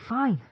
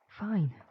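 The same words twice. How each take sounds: First: It is yelled loudly. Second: It is said more quietly.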